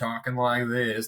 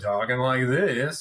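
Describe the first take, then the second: First: It is said in a less southern voice. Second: It is said in a deeper southern voice.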